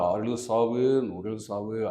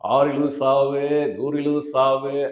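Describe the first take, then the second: First: It is said earnestly, as a plain explanation. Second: It is said grandly, like addressing a crowd. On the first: It is a justification given when questioned. "எதுக்கு நீ சண்ட போடுற? அப்படின்னு கேட்டதுக்கு" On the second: It is advice addressed to a crowd of fans. "Stage speech"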